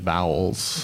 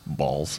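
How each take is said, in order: First: The vowel sounds like the one in 'owl'. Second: The vowel sounds like the one in 'all'. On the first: This is the supposedly proper way to say it. "You really should pronounce it properly, which is bowels" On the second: This is how people at the event said it. "just hearing people chat and just kind of like balls"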